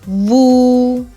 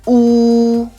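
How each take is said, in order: First: It starts with a clear w glide. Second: It starts straight on the rounded vowel. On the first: The speaker calls it wrong. "make sure that you don't say woo" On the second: The speaker calls it right. "It's more of like a ooh"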